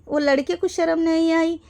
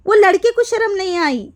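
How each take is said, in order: First: Said in the usual way. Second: Louder and higher, stress on लड़के; indignant outburst. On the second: Real, not acted. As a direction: throw out वो लड़के को शर्म नहीं आई in outrage. Angry rant repeating the line. (गुस्से में ऊँची आवाज़)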